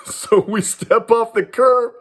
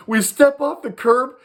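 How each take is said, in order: First: High and laughing through the words; can't hold back a laugh as he tells it. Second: Said in the usual way. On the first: Real, not acted. Telling a friend the story, laughing at the memory. Laughs while retelling the street scene.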